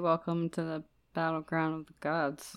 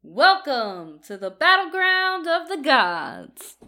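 First: It is said calmly, without much energy. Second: It is said with hyped, shoutcaster-like energy.

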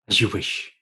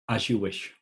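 First: It is said slowly with grave weight. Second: It is said plainly, without weight.

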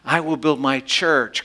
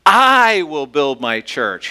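First: The stress is on "church". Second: The stress is on "I".

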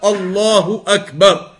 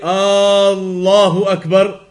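First: No vowel is drawn out beyond normal length. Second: The opening vowel is drawn out long. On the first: The speaker calls it right. "pronounces it and says it in the proper manner" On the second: The speaker calls it wrong. "That's a mistake if you elongate the alif at the beginning"

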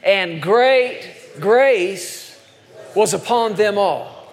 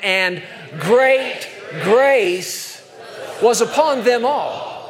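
First: It is said in a calm, plain tone. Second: It is said in an excited tone.

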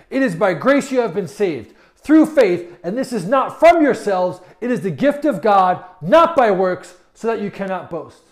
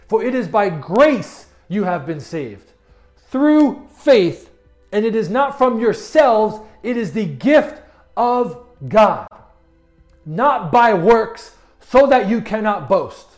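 First: It is read a little faster. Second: It is read at a normal pace.

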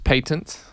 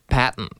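First: The word is said with a British pronunciation. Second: The word is said with an American pronunciation. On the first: "In the British English, it's patent" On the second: "In American English, they say patent"

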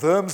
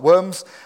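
First: The word begins with a V sound. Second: The word begins with a W sound. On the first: It names the town. The speaker calls it right. "a place called Worms" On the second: It names the crawling animals. The speaker calls it wrong. "not Worms"

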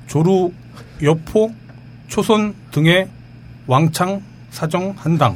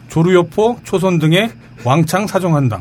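First: The list is read slowly, name by name. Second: The list is read quickly, names run together.

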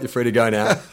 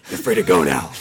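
First: It is said in the speaker's ordinary voice. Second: It is said in a put-on Batman voice.

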